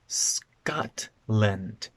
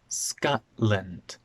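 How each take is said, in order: First: The T is pronounced with the tongue. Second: The T is replaced by a glottal stop.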